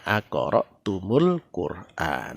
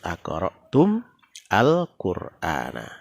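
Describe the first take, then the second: First: The words are joined, with an added u vowel. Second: The two words are read with a break between. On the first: "dibaca nyambung menjadi aqra'tumul Qur'an" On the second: "pembacaan yang terputus"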